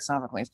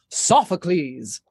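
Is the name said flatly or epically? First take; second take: flatly; epically. First: It is said flatly, without drama. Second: It is said grandly, with dramatic energy.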